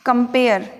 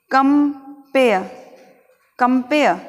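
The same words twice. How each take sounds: First: कंपेयर ending in a sounded R; कंपेयर with audible final R; common pronunciation. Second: कंपेयर split as "kum... pe-uh"; deliberate, R-less कंपेयर; correct pronunciation. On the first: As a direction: say कंपेयर as "kum-pair". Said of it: "किस प्रकार से बोलना है". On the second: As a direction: drop the final R of कंपेयर. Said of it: "कंपेयर को हमें किस प्रकार से बोलना". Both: Shown as a demonstration.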